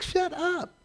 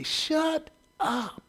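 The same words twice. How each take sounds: First: Put-on high, soft little-kid parroting; toddler copying. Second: High, soft retort; a muttered scolding snap; retold shut up. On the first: Little daughter copying dad's TV retort, high and soft. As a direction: play the baby echoing dad. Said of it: "she's like". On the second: Dad at the TV president, high soft retort. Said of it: "And I would say".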